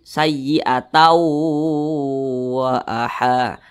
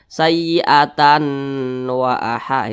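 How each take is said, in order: First: The n merges into a nasal, held w. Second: The n sound is pronounced clearly before wa. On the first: The speaker calls it right. "langsung dimasukkan ke huruf wa. Didengungkan" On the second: The speaker calls it wrong. "Jangan dibaca sayyi'atan wa aha, itu salah"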